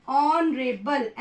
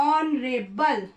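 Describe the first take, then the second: Both takes have the same delivery.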